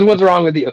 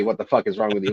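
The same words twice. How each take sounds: First: Higher, louder mock scolding; imitated exasperation. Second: Said in the usual way. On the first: Harry scolding Marv over the running water, retold with exasperation. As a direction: act out an exasperated telling-off, pitched up. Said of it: "But he goes". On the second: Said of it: "He, he doesn't say".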